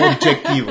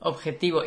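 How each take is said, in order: First: "objetivo" said with an English J sound, "ob-jek-tivo"; wrong pronunciation. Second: "Objetivo" with a Spanish jota and no K sound; correct pronunciation. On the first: Explaining his old mistake, English-style "objetivo". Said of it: "J para mí". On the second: Correcting her friend, Spanish "Objetivo". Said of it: "no tiene la C". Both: Shown as a demonstration.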